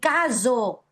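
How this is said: The rr is a hissing fricative buzz. "en Bolivia vamos a encontrar que algunos pronuncian"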